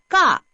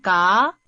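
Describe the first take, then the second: First: The pitch falls sharply from high to low. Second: The pitch rises from mid to high. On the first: "사성으로 해봅시다" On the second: "이성으로 하면"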